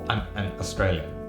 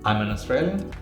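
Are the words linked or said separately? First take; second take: separately; linked. First: The words are separated, choppy and jumpy. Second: The words run together smoothly, sounds linked. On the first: The speaker calls it wrong. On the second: The speaker calls it right.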